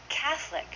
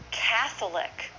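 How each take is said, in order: First: "Catholic" as CATH-lic; two syllables. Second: Slow "Catholic", cath-o-lic; full three syllables. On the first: Teacher modelling for learners, "Catholic" shortened to cath-lic. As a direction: drop the middle vowel of "Catholic". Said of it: "Two syllables". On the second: Teacher showing the long form, "Catholic" slowly in three syllables. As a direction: sound out every vowel of "Catholic". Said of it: "We say that". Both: Shown as a demonstration.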